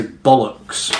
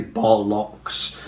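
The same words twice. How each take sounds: First: "bollocks" with a schwa in the second syllable; "bollocks" with a weak uh before the final ks; natural reduced vowel. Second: Slow "bollocks" with a full O in both syllables; "bollocks" ending like the word locks; overly literal pronunciation. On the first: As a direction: say "bollocks" as BOL-uhks, stress on the first. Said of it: "we say bollocks". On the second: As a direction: say "bollocks" as BOL-LOCKS, second vowel unreduced. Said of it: "but we don't say bollocks". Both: Shown as a demonstration.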